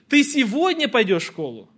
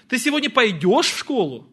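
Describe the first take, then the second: First: The stress falls on the word сегодня. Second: The stress falls on the word пойдешь. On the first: Asks whether the going happens today or tomorrow. "Сегодня или завтра?" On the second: Asks whether you will go or not, or ride. "Пойдешь или не пойдешь?"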